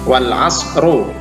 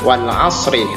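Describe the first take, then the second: First: The last word ends with a u vowel. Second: The last word ends with an i vowel. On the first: The speaker calls it wrong. "tidak boleh dibaca wal asru" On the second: The speaker calls it right. "Kita baca wal asri"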